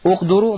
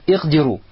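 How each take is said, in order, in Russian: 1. Слово начинается с гласного 'u'. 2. Слово начинается с гласного 'i'. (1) "Ваяджуз аббам уалькасар" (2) "можно сказать «ихдиру»"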